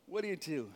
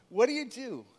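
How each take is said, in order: First: Same question dropped much softer and lower; hushed, pondering repeat; quiet repeat. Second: Said in the usual way. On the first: Shown as a demonstration. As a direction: let it fall away softly.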